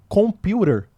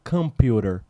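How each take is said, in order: First: The first vowel is a full O sound. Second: The first vowel is a short reduced sound. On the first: It marks the speaker as a non-native. "com som de O" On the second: It is how native speakers say it. "como eles pronunciam lá"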